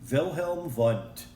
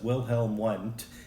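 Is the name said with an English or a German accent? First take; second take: German; English. First: The name is said with a German accent. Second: The name is said with an English accent. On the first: "you got to use that German accent once in a while" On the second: "I know it looks like it says"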